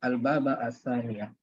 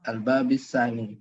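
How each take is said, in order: First: The word bab ends in an a vowel. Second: The word bab ends in an i vowel. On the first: The phrase is the object of the verb. "Jadi bisa dia sebagai maf'ul bih" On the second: The phrase follows an implied preposition. "dibaca majrur"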